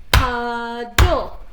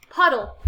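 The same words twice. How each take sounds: First: "puddle" louder, broken as "pud" and "dle"; split into syllables. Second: Said in the usual way. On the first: Shown as a demonstration. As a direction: break "puddle" in two. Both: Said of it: "Break it apart".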